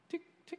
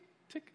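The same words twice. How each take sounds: First: Very high, soft tick imitating drips; dripping sound. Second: Fading unvoiced tick of a drip; whispered dripping sound. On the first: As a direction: mimic a water drop, high and light. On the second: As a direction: whisper the drips away to nothing. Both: Shown as a demonstration. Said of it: "It's like".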